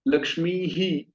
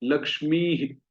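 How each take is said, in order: First: लक्ष्मी ही with a separate, drawn-out "hee"; wrong visarga. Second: लक्ष्मी ही with a short, joined "hi"; correct visarga. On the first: Teacher showing students the wrong way. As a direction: say लक्ष्मी ही slowly with a full "hee". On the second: Teacher giving the right form. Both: Shown as a demonstration. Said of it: "ऐसा नहीं".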